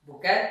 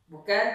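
No difference in how they are said.

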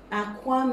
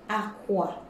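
First: It carries the tone pattern of 'egg'. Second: It carries the tone pattern of 'bed'. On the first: The word means an egg. "Aqua means an egg" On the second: The word means a bed. "Aqua means a bed"

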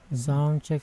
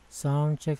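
First: The voice sounds fuller, with more low body. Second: The voice sounds thinner, with less low body. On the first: "Lumaki yung ano, lumabas yung malaki" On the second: "Pag binaba ko yan ... Nawala yung laki"

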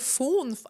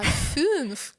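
First: The vowel is a plain back oo sound. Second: The vowel is a fronted ü sound. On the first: The speaker calls it wrong. "Та не фунф" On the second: The speaker calls it right. "Ф плюс ю з'єднай"

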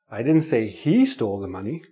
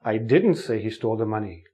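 First: The stress falls on the word 'he'. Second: The stress falls on the word 'didn't'. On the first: Someone else stole the money, not him. "Somebody else stole the money" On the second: The speaker denies ever saying it. "You think I said it, but I didn't say it"

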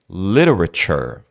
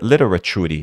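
First: The word ends in 'chur' with no extra vowel. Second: The word ends with an extra vowel after 'chur'. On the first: The speaker calls it right. "Você fala um chur" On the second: The speaker calls it wrong. "você não fala churi"

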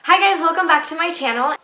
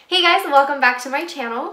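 First: It is said with overexcited, high energy. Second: It is said with calmer, toned-down energy.

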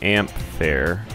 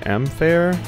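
First: The 'amp' part is strongly emphasized. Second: The 'amp' part is not specially emphasized.

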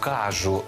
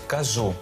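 First: It has the western Ukrainian dialect stress. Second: It has the standard literary stress. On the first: The speaker calls it wrong. "Це наголоси такі, ознака західноукраїнських діалектів" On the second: The speaker calls it right. "Правильно сказати"

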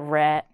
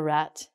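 First: The final T is cut off and not released. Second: The final T is clearly pronounced. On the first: The speaker calls it right. "it's called a rat" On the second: The speaker calls it wrong. "not a rat"

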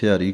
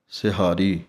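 First: The middle is said without an h sound. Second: The middle is said with an h sound. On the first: The speaker calls it wrong. "ਕਈ ਸਿਹਾਰੀ ਕਹਿ ਦਿੰਦੇ ਹਨ ਐੜੇ ਦੇ ਨਾਲ" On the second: The speaker calls it right. "ਜੋ ਸ਼ੁੱਧ ਉਚਾਰਨ ਹੈ ਹਾਹੇ ਦੇ ਨਾਲ ਹੈ"

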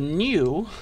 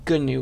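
First: The word starts without a G sound. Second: The word starts with a hard G sound. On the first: It names the animal. "There's an animal called the new" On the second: It names the software project. "with a hard G"

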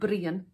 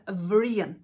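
First: The word begins with a B sound. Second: The word begins with a V sound. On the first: "the H changes the pronunciation from Brian" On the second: "to Vrian"

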